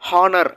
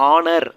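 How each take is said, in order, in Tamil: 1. இந்த வார்த்தை H ஒலியில் தொடங்குகிறது. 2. இந்த வார்த்தை உயிரெழுத்தில் தொடங்குகிறது, H இல்லை. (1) "ஹெச் சவுண்டு சொல்லக்கூடாது" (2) "ஆ சவுண்டு தான் வரணும்"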